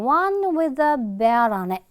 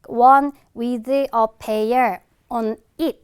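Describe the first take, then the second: First: The words run together with sounds linked. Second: Each word is said separately without linking. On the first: The speaker calls it right. "이런 식으로 연음이 쭉쭉 돼" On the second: The speaker calls it wrong. "이렇게 발음 안 해준단 말이야"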